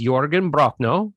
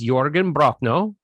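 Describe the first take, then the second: First: The name is said with a rolled R. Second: The name is said with a rolled R.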